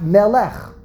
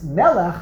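First: The stress is on the second syllable. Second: The stress is on the first syllable. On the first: The speaker calls it wrong. "not Melech" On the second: The speaker calls it right. "it's Melech, ... So the one Mila'el is the Ikor"

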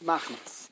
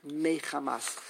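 First: It is said with two syllables, no middle vowel. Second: It is said with three syllables, keeping the middle vowel. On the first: This is the common yeshiva pronunciation. "The yeshivish way is machmas" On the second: This is the grammatically correct pronunciation. "the grammatically correct way to pronounce it"

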